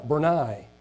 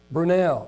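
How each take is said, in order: First: Brunei said "bur-NIGH"; corrected pronunciation. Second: Brunei said slowly as "broo-NELL"; tentative pronunciation. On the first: Preacher correcting a country name, Brunei as "bur-NIGH". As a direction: say Brunei ending like "eye". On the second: Preacher feeling out a country name, slow Brunei as "broo-NELL". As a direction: say Brunei slowly with an "eh" second syllable. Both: Shown as a demonstration.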